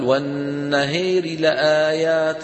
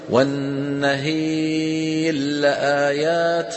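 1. تُنطق الراء بصوت خفيف منخفض وسريع، غير مدغمة. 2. تُدغم الراء تماما في اللام التي بعدها. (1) "ينطق راء بصوت منخفض ويسرع قليلا" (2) "لنا أن ندغم فنقول"

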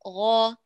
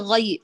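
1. صوت الغين ثقيل ومفخّم. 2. صوت الغين خفيف ورقيق. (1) "قولي غا غا غين" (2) "فلا تقولي غي غ غ"

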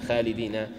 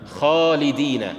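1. الألف الطويلة مرققة ونحيفة. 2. الألف الطويلة مفخمة وممتلئة. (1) "لا تقل" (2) "الأحرف المفخمة، الألف بعدها مفخمة"

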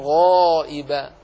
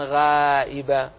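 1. صوت gh مفخم ومستعل. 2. صوت gh مرقق ورقيق. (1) "قل وما من غائب" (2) "ولا تقل وما من غائب"

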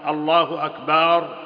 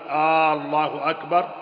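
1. تُمدّ الحركة بعد الباء مدًّا طويلًا. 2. تُمدّ حركة همزة البداية مدًّا طويلًا. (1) "بمد الباء فقد قال العلماء لا يصح" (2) "بمد الهمزة لم يصح"

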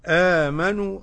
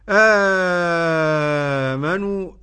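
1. يُمَدّ حرف المد مدًّا قصيرًا، نحو حركتين تقريبًا. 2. يُمَدّ حرف المد مدًّا كاملًا، نحو ست حركات تقريبًا. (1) "أدي القصر" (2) "أدي المد"

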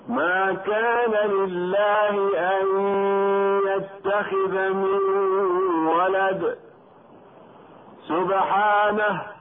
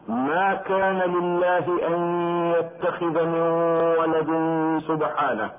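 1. يقف بعد ولد قبل سبحانه. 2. يمر على ولد ويقف بعد سبحانه. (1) "والصحيح الوقف والقراءة تكون هكذا" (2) "فيتركون الوقف على ولد ويقفون على كلمة سبحانه"

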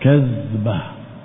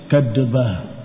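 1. Konsonan di tengah adalah 'dh' yang lembut tanpa pantulan. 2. Konsonan di tengah adalah 'd' dengan pantulan yang bergema. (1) "Kalau zal dengan titik tidak dibaca qalqalah" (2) "kalau dal tanpa titik, kadbah, pakai kol-kola"

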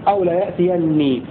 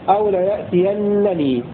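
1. الفعل ينتهي بالنون المشددة فقط. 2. النون المشددة تليها مقطع نون آخر. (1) "بحذف نون الوقاية" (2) "بنون التوكيد المشددة وبعدها نون الوقاية"

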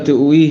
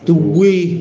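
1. الهمزة تُنطق كاملة قبل الواو. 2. الهمزة تتحول إلى واو وتندمج في واو مشددة.

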